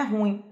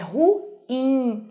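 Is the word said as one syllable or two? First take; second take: one; two. First: The u and i join in one syllable. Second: The u and i are split into two syllables. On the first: The speaker calls it wrong. "porque não é ruim" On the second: The speaker calls it right. "é ruim, hiato"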